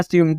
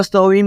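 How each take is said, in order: First: Assume as quick "sium", for swim; correct reading. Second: स्विम as "so-wim", split start; letter-by-letter misreading. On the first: Teacher giving the right reading, Assume as "sium". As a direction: say Assume as one run, "swim". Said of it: "आपको क्या पढ़ना है?". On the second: Teacher showing what not to read, स्विम as "so-wim". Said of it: "आपको स्विम नहीं पढ़ना". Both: Shown as a demonstration.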